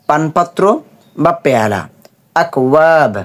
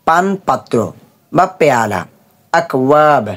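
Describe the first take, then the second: Both takes have the same delivery.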